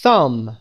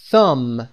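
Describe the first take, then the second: No difference in how they are said.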